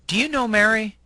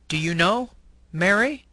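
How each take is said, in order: First: The name follows without any pause. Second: A short pause comes before the rising name. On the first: The speaker is asking about Mary. "In the first example, the person is speaking about Mary" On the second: The speaker is addressing Mary directly. "the person is speaking to Mary"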